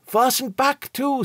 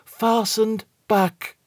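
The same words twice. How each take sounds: First: Much higher, slow with "back" leaned on; the word "back" hit and falling; stress on back. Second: Very slow, "fastened" stressed, falling ominously; "fastened" leaned on, trailing down. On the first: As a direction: steward hinting at the eerie port. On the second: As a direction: drag the words out like a warning. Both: A narrator's reading. Steward repeats it for effect.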